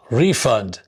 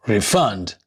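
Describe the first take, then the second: First: Refund as RE-fund, first syllable stressed. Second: Refund as re-FUND, second syllable stressed. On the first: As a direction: hit the RE in refund. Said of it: "nouns and adjectives normally have the stress on their first". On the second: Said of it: "the stress is shifted onto the second syllables". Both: Shown as a demonstration.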